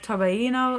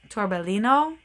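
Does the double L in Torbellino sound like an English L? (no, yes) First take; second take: no; yes. First: The double L is not said as an L. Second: The double L is said as an L sound. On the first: The speaker calls it right. "that's my best guess" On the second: The speaker calls it wrong. "I always want to pronounce this sweater Torbellino, and uh, it's not that because it's got the double L"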